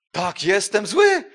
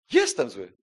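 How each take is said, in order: First: Loud, slow, defiant admission; slow shouted confession, higher and louder. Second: Low, plain, resigned. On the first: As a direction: shout it back at the accuser. Answering the devil's accusation. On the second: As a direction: say it simply, accepting it. Repeating the admission quietly. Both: Acted.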